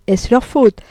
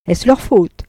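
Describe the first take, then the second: First: Leans on FAUTE, louder and higher; repeated with a lawyer's sneer; Ciceronian irony. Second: Weighs LEUR, lets it fall; mocking courtroom irony; ironic question. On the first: Acted. Deslauriers repeating the jab, courtroom irony. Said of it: "avec une ironie cicéronienne qui sentait le palais". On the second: Deslauriers mocking Frédéric's excuse, ironic lawyer's tone. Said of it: "avec une ironie cicéronienne".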